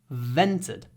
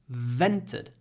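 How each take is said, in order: The two takes are said the same way.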